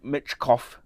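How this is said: The name is said in a Russian accent. "Can I do a Russian accent?"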